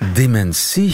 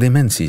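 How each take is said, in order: First: The stress is on the last syllable. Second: The stress is on the middle syllable. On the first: This is how most Dutch people say it. "De meeste Nederlanders die zeggen inderdaad dementie" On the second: This is how Flemish people say it. "wij Vlamingen, als we dementie zeggen"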